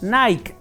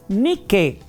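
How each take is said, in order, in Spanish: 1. Se pronuncia el nombre a la manera inglesa. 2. Se pronuncia el nombre a la manera griega. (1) "no es inglés" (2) "es griego"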